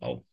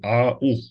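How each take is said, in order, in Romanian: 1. Cele două vocale alunecă împreună într-o singură silabă. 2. Cele două vocale se rostesc ca silabe separate. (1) "nu EU sau AU" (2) "Și citim au"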